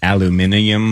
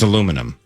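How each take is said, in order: First: The word is said the British way. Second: The word is said the American way. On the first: The speaker calls it wrong. "I hate how Brits say it. Like" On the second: The speaker calls it right. "So it's aluminum"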